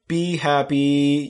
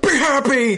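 First: It is said in a calm, gentle voice. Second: It is said in a harsh, demanding voice.

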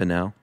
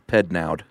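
First: The final D is silent. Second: The final D is pronounced. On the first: "I assume the D is silent" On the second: "And or maybe not"

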